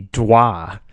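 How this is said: The name is said with a French accent. "if they were from France, it'd be Dois"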